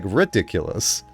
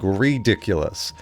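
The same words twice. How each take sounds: First: The first vowel sounds like a short 'i'. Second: The first vowel sounds like a long 'ee'. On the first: This is how the word should be said. The speaker calls it right. "It's it's ri- like ridiculous" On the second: This is how people around the speaker say it. The speaker calls it wrong. "everyone around me say re like ridiculous"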